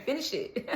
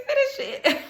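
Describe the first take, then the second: First: Soft firm "Finish it."; quiet firm command. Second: "Finish it." much higher, laughing; laughing command. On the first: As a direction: say "Finish it." softly, firmly. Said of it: "I just keep hearing". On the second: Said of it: "That's all I'm hearing is". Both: Retold or imitated.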